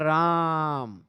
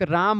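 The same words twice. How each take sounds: First: The vowel is stretched out extra long. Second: The vowel is said at normal length.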